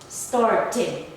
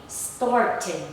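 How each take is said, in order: The two takes are said the same way.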